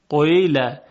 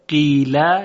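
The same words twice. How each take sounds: First: The first vowel starts with a rounded u hint. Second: The first vowel is a pure i sound. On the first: "یعنی اول یک اشاره به ضمه میکنن" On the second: "یعنی حرف یا رو خالص بگن"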